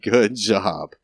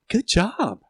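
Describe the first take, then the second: First: It sounds sarcastic and dismissive. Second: It sounds sincere and genuinely approving.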